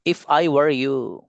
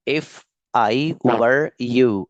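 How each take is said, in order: First: Slow model phrase. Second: "were" leaned on, each word drawn out; stretched emphasis. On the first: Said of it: "teacher repeats for class". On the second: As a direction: stretch "if I were you" with weight on "were". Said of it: "teacher repeats, stretched". ("were" पर ज़ोर देकर, खींचकर) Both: Shown as a demonstration.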